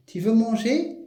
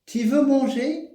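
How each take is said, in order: First: Teacher's rising question tune; question intonation. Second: "tu veux manger?" sung high with a rising question tune; question intonation. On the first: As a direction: model "Tu veux manger?" as a question, lifting "manger". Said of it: "La voix, hein, baisse". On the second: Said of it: "nous avons l'intonation". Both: Shown as a demonstration.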